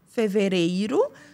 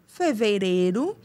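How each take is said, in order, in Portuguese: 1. O ditongo 'ei' é pronunciado totalmente. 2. O 'i' é omitido, ficando um 'ê' fechado. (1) "ao invés de ser" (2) "E eu já engulo i e boto um acento circunflexo no é"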